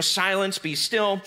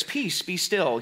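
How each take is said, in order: First: Said in the usual way. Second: Slow, hushed and holy; pious. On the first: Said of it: "the New Living Translation says". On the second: Shown as a demonstration. Quoting the King James Version, slow and pious. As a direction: intone it like an old pulpit reading. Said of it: "it's so pious, it's so, so holy".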